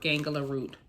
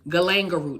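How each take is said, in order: First: The first word begins with the sound 'gang'. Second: The first word begins with the sound 'gal'. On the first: The speaker calls it wrong. "I keep calling gangula galanga" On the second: The speaker calls it right. "is the proper way to say that"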